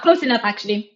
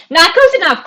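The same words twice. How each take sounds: First: Said in the usual way. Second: Higher and louder through laughter; laughing. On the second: Real, not acted. Lacht om de vraag.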